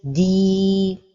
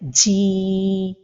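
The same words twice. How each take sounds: First: The long vowel is clear without extra breath. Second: The long vowel is breathy with escaping air. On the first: The speaker calls it right. "the right pronunciation is" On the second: The speaker calls it wrong. "the mistake is to give hams to the lengthening like this"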